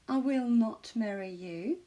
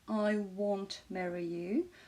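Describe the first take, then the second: First: The negative is said as two full words. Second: The negative is contracted into one short syllable. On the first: "contracté ou pas" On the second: "Won't est la contraction de will et not"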